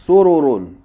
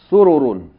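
First: The vowels are kept short. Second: The vowels are kept short.

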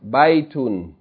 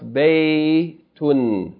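First: The first vowel sounds like 'eye'. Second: The first vowel sounds like 'ay' in day. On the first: The speaker calls it wrong. "This is not pronounced baytun" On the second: The speaker calls it right. "It's pronounced baytun"

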